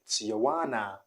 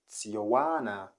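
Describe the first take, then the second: Both takes have the same delivery.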